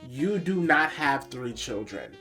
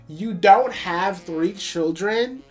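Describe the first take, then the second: First: It is said at a normal speaking volume. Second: It is said more loudly than before.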